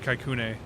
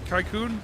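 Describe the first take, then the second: First: The name ends with an added 'eh' vowel. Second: The name ends on the consonant, no final vowel.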